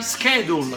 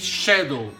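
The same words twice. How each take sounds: First: It is said with the American pronunciation. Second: It is said with the British pronunciation. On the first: The speaker calls it right. "As you are American, you are not British, you say schedule" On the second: The speaker calls it wrong. "you don't say schedule like the British"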